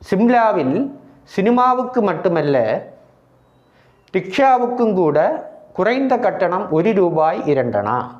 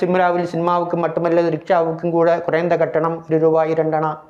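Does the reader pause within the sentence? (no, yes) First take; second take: yes; no. First: It is read with pauses at the punctuation. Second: It is read very fast without any pauses. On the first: Listeners understand it clearly. The speaker calls it right. "நிறுத்தி நிறுத்தி அந்த மாத்திரை அளவுகளுக்கு ஏற்ற முறையில் நிறுத்தி நிறுத்தி வாசிக்க வேண்டும்" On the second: Listeners cannot understand it clearly. The speaker calls it wrong. "மிகவும் வேகமாக என்றால்"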